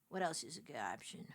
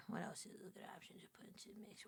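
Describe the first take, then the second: First: Said in the usual way. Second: Fast, breathy whisper to herself. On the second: Shown as a demonstration. Streamer whispering her game question to herself. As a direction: whisper the question quickly, almost secretly.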